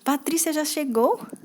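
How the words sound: It is said with a surprised tone. The speaker did not expect the arrival. "Quando está com surpresa"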